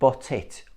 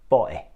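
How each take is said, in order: First: The t is pronounced as a full t. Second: The t is replaced by a glottal stop. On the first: "produce T sound" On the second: "use a glottal stop"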